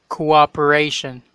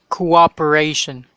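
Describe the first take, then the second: No difference in how they are said.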